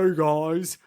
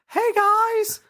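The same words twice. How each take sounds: First: It is said in a low voice. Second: It is said in a high voice.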